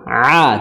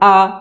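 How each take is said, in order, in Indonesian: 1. Bunyi ini ditekan dari tengah tenggorokan. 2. Bunyinya diawali hamzah biasa. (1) "a sambil ditekan, kemudian ada ada suara susulannya nasal" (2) "Jadi jangan a. Kalau a nanti jadi jadi hamzah"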